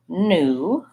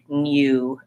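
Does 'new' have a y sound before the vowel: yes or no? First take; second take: no; yes. First: No y sound comes before the oo. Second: A y sound comes before the oo. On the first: "we just say new with no y sound" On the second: "In British English, they might use U for both of these"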